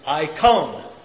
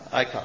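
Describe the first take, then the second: First: The O vowel is long and drawn out. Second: The O vowel is short, as in English. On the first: "So Omega is a long O, so we're going to say icon" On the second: "most of us know this term in the English, I-C-O-N, and how will we pronounce that?"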